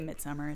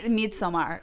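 First: The word is said with an English pronunciation. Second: The word is said with a Swedish pronunciation. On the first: "I just say Midsommar. It's fine" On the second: "It's like how the Swedes would say it"

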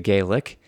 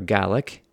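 First: The word is pronounced the Irish way. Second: The word is pronounced the Scottish way. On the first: The speaker calls it wrong. "it's pronounced in Ireland more like Gaelic" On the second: The speaker calls it right. "in Scotland, as opposed to Ireland, they tend to pronounce the name of their language Gaelic"

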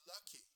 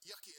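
First: The word begins with an L sound. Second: The word begins with a Y sound. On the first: An adult is saying it. The speaker calls it right. "it's lucky" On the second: A small child is saying it. The speaker calls it wrong. "it's not yucky"

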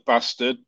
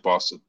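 First: It is said in a northern English accent. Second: It is said in a London accent. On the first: The speaker calls it right. "it's a northern thing, so it's probably Thunder Bastard" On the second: The speaker calls it wrong. "I'm from London, so I say bastard"

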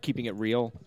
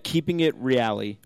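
First: The name is said like English 'real'. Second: The name is not said like English 'real'. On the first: The speaker calls it wrong. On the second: The speaker calls it right.

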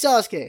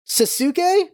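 First: The name is said with a Japanese pronunciation. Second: The name is said with an American pronunciation. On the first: The speaker calls it right. "in the Japanese version, it's pronounced correctly" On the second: The speaker calls it wrong. "in the American version, he's pronounced Sasuke"

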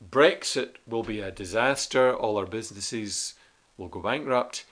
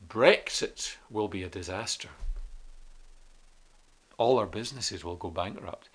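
First: There is no pause after 'disaster'. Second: There is a long pause after 'disaster'. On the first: The speaker calls it wrong. "instead of saying" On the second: The speaker calls it right. "it might be more effective to do it like this"

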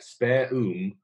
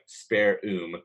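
First: It has a British accent, crisply enunciated. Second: It has an American accent with a hard R. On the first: The speaker calls it right. "it's very enunciated and it's very clear" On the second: The speaker calls it wrong. "in American English, we speak hard R's"

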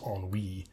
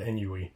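First: The ending rhymes with the word sea. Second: The ending does not rhyme with sea. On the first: The speaker calls it right. "So I learned that it was ennui" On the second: The speaker calls it wrong. "that rhymes much, much better than died of ennui"

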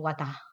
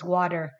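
First: The word is said in an Australian accent. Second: The word is said without an Australian accent.

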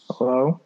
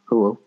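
First: It is said in a normal voice. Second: It is said in a put-on deep voice.

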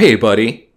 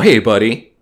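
First: It sounds soft and tender, like soothing someone. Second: It sounds soft and tender, like soothing someone.

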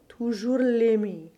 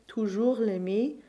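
First: Extra stress falls on the first syllable of l'aimer. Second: The stress falls on the final syllables as usual. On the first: "give slightly more stress to the first syllable of either of these words" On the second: "rather than always saying toujours l'aimer"

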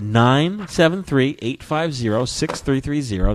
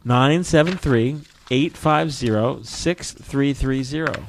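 First: The number is read out quickly. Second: The number is read out slowly.

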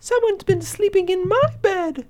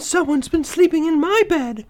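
First: A tiny, high voice says it. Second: A medium-pitched voice says it. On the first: The smallest bear is speaking. "Baby Bear squeaked in his tiny little voice" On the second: The middle-sized bear is speaking. "Mama Bear exclaimed in her medium-sized voice"

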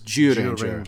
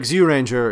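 First: The name begins with a J sound. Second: The name begins with a Z sound.

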